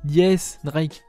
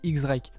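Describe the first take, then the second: First: The first part sounds like 'yes'. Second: The first part sounds like the letter 'ex'. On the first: This is the official reading of the name. "ça se prononce, se lit, Yes, Drake" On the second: This reads the name the way it is written. "c'est marqué X, je dis X-Drake"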